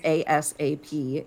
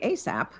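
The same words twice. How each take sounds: First: Each letter is spoken separately, A-S-A-P. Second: It is spoken as one word, ay-sap. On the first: "if I say it as ASAP, it's an initialism" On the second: "if you say ASAP, then, you know, magic. It's an acronym now"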